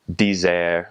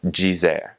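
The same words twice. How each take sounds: First: "dizer" with a hard d, dee-ZEHR; continental Portuguese pronunciation. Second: "dizer" with di said as "jee"; Brazilian j sound. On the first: Teacher contrasting Portugal with Brazil, continental pronunciation. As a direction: say "dizer" slowly with no j sound. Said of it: "In continental Portuguese". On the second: Teacher repeating after spelling it, Brazilian pronunciation. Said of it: "that will make a j sound". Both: Shown as a demonstration.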